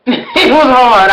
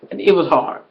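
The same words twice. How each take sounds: First: Louder, slow, laughing it out; laughing emphasis. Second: Said in the usual way. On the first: Real, not acted. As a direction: lean in with a laugh and stretch it.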